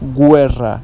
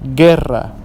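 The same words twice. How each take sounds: First: A 'w' sound is heard after the g. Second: No 'w' sound is heard after the g. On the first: The speaker calls it wrong. "not guerra" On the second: The speaker calls it right. "The U is silent"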